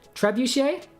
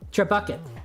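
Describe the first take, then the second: First: The word ends with a 'shay' sound. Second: The word ends with a 'ket' sound.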